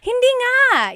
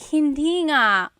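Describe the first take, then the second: First: It sounds excited and happy. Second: It sounds dismayed and sad. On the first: Disbelief at good news. "something really exciting" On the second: Disbelief at bad news. "oh no, I lost my cat"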